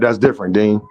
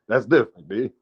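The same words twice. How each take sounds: First: It is read in the speaker's plain voice. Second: It is said in an imitation of Quee's voice.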